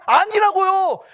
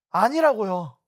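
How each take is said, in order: First: Loud, higher "아니라고요" hammered down with a falling end; emphatic no. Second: Said in the usual way. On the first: Acted. Pastor rejecting the congregation's excuse, loud and higher. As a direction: slam the denial. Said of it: "의인이에요?". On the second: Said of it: "좀 나은 자 같아요?".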